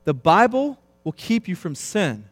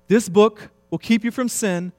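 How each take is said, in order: First: Said in the usual way. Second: "This" punched higher and louder, rest falling; stress on This. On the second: Shown as a demonstration. Preacher repeating Bunyan's line, hitting "This". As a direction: lean hard on "This" before "book".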